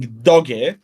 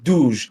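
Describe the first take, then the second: First: It is said with an English pronunciation. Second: It is said with a French pronunciation. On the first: "as the proper English pro- uh, pronunciation would be" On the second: "commit to the French and call it douche"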